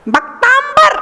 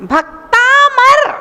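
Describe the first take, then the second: First: "भक्तांबर" with an intrusive b after m, higher; wrong pronunciation. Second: "भक्तामर" very slowly, long taa, pure m; correct pronunciation. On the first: Teacher showing what the word is not, wrong-pronunciation demo. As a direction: close the lips into "mb" in "भक्तांबर". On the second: Teacher correcting the common error, slow correct demo. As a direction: stretch "भक्तामर" into bhak-taa-mar with no b. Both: Shown as a demonstration. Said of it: "भक्तांबर नहीं है".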